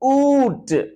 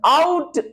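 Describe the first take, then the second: First: The vowel sounds like oo, as in 'boot'. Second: The vowel sounds like ow, as in 'cow'. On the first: This is the older, Middle English pronunciation. "It was pronounced as oot" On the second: This is the later, early modern pronunciation. "it is pronounced as out in the early modern version"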